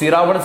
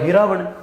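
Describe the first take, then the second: First: The word begins with an s sound. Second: The word begins with an h sound. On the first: "तो सिरावण से क्या हो गया?" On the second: "सै को क्या कर देते?"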